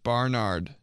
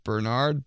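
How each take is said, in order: First: "Barnard" with bar as first syllable; mispronounced Bernard. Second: Said in the usual way. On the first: Shown as a demonstration. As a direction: open "Barnard" to an ah vowel. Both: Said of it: "Instead of Bernard".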